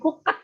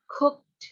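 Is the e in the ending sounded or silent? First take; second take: sounded; silent. First: The e in the ending is sounded. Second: The e in the ending is silent. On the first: The speaker calls it wrong. "Bukan cooked" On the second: The speaker calls it right. "Tapi E-nya nggak dibaca"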